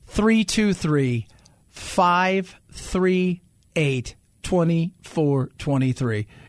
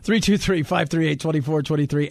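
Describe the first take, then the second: First: The number is said slowly. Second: The number is said fast.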